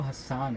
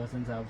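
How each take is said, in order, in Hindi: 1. इस नाम में s दोहरा है और अंतिम स्वर लंबा है। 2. इस नाम में एकल s है और स्वर छोटे हैं। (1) "मेरा एक्चुअल नेम जो है वो हस्सान है" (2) "मैं उसको प्रोनाउंस कर रहा था जी हसन साहब"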